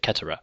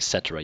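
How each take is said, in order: First: The word begins with a hard K sound. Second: The word begins with a soft S sound. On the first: The speaker calls it right. "So there's always a hard C" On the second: The speaker calls it wrong. "You wouldn't say cetera"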